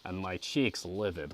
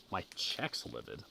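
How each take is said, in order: First: Said in the usual way. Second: "cheeks" said as "checks", with a short e; literal misreading. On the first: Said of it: "that's gotta be cheeks". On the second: Real, not acted. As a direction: softly test out "cheeks" pronounced like "checks". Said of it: "It definitely says checks".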